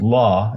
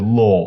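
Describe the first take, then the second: First: The vowel is a plain, open 'ah' sound. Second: The vowel is a lower, exaggerated 'aw' sound. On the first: This is the usual American way. "instead of saying la" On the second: This is how people in New England say it. "you say law, aw, law"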